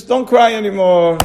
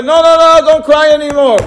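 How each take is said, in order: First: Said in the usual way. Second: Higher and louder, urgently telling her to stop crying; raised, insistent voice of Hashem consoling Rachel; comforting command. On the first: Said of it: "but Rachel Imenu says". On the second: Retold or imitated. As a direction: plead with her: no, no, stop now. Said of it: "So Ribbono Shel Olam told Rachel".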